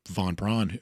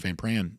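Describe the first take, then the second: First: The name is given a German-sounding pronunciation. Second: The name is given a plain English pronunciation.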